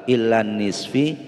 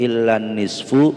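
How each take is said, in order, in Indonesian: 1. Kata terakhir diakhiri vokal i. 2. Kata terakhir diakhiri vokal u.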